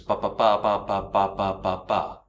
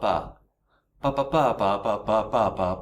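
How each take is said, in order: First: The syllables keep an even, flat pitch. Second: The syllables follow a changing pitch contour. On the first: "So the rhythm there is" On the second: "then add the intonation"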